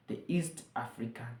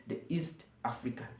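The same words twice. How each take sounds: The two takes are said the same way.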